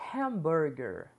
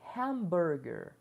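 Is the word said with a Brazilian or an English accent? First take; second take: English; English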